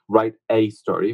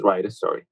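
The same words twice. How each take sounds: First: "a" said as a full, stressed "ay". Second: Said in the usual way. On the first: Shown as a demonstration. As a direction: lean on the word "a" in "write a story". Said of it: "if we wanna say". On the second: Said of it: "which means write a story".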